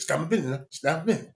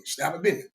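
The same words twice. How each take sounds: First: Put-on South Georgia accent. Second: South Georgia drawl. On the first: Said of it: "he from South Georgia". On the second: Retold or imitated. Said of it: "That's how you talk".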